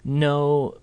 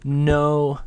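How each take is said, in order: First: The pitch stays level. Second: The same.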